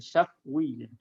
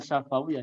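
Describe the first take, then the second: First: No vowel is heard after the f. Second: An extra vowel is heard after the f. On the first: The speaker calls it right. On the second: The speaker calls it wrong.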